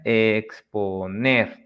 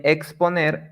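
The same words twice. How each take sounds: First: "exponer" slowly broken into ex-po-NER; stressed final syllable. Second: Said in the usual way. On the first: Shown as a demonstration. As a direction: draw out "exponer", landing on NER. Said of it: "where you put the sílaba tónica". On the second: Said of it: "This is where you put".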